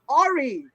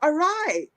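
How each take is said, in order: First: The word begins with an 'or' sound. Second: The word does not begin with an 'or' sound. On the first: The speaker calls it wrong. "not Ori" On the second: The speaker calls it right. "why it's pronounced Arai"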